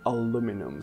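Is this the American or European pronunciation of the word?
American. It is said with the American pronunciation. "So this is the American pronunciation"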